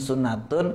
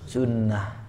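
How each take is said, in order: First: The word ends with a t sound and vowel. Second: The word ends with a soft h sound. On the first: The word is read without stopping on it. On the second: The reader stops on the word.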